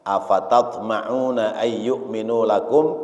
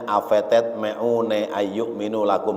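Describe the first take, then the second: First: The a vowels are pronounced as open a. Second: The a vowels are shifted toward e. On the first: The speaker calls it right. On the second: The speaker calls it wrong.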